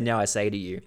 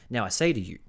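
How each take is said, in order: First: It is said in a natural speaking voice. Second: It is said in a put-on imitation voice.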